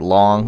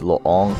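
First: The vowel sounds like the one in 'long'. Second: The vowel sounds like the one in 'loon'. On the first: This is what most people call it. The speaker calls it wrong. "Everybody calls it Long" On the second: This is the real pronunciation. The speaker calls it right. "I think it's Loong is how you really pronounce it"

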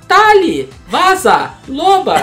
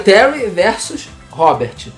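First: It is said in a heavy Japanese accent. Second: It is said with ordinary pronunciation. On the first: "Ela falava" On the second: "Era Terry versus Robert"

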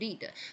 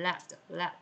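First: The vowel is a long ee sound. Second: The vowel is a short e sound. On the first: To cause or guide something. "这个当动词导致lead to 导致" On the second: A heavy metal. "它如果是名词呢，表示铅……它的音标到3a"

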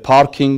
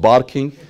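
First: The word begins with a P sound. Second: The word begins with a B sound. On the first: "the parking" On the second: "they call it barking"

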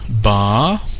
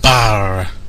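First: The R is silent, with no consonant sound. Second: The R is rolled as a clear consonant. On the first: The speaker calls it right. "which in English has no R sound" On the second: The speaker calls it wrong. "they're rolling the R"

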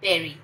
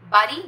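First: The first vowel sounds like 'eh'. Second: The first vowel sounds like 'ah'. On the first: The speaker calls it right. "नहीं बेरी" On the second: The speaker calls it wrong. "बारी नहीं"

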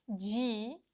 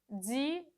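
First: It starts with a soft hushing 'dj' sound. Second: It starts with a hissing 'dz' sound. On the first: The speaker calls it right. "обов'язково повторюйте" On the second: The speaker calls it wrong. "Зараз я скажу, як неправильно"

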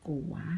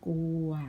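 First: The word is said with a rising tone. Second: The word is said with a mid tone.

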